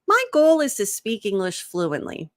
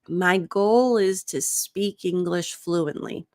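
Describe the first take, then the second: First: The sentence is spoken at a relaxed conversational pace. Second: The sentence is spoken slowly and carefully. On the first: "Imagine you're talking to a coworker. You're like, yeah, you know" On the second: "we're gonna go slow first"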